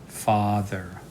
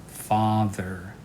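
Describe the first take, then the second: The two takes are said the same way.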